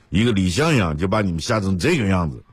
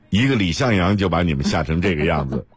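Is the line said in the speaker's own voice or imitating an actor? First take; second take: imitating; own voice. First: It is said in an imitated old-film actor's voice. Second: It is said in the speaker's ordinary voice.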